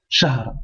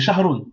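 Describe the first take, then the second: First: The word stops sharply on its final consonant. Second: The word ends with an added -un sound. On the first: The reading stops at this word. "le mieux c'est de dire, de bloquer la dernière lettre" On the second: The reading continues on to further words. "C'est shahrun, certes"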